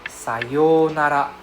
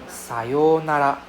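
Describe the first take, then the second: Both takes have the same delivery.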